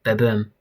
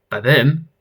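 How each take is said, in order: First: Ba-boom said low with a falling tune; stated Ba-boom. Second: Ba-boom echoed with a rising tune; questioning Ba-boom. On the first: Character answers the stare with Ba-boom, low and falling. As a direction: let Ba-boom drop like a statement. Word stated, then queried. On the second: Puzzled listener echoes Ba-boom, as a rising question. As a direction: lift the end of Ba-boom into a question. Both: Acted.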